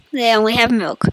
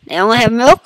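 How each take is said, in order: First: "milk" falling, said softly; plain falling statement. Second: "milk" rising into a question; puzzled question. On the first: Player reading out what the shop sells, falling statement. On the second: Player doubting what the shop sells, rising question. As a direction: question it, lifting sharply on "milk". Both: Real, not acted. Same words stated, then questioned.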